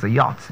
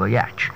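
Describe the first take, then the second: First: "yacht" said as yot, silent ch; correct pronunciation. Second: "yacht" said as yatch; mispronounced yacht. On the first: Coach showing how it's pronounced, correct pronunciation. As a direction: say "yacht" with open o and final t. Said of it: "That's why it's pronounced a yacht". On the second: Coach showing what it is not, mispronunciation. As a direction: say "yacht" with short a and ch ending. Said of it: "not a yacht". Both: Shown as a demonstration.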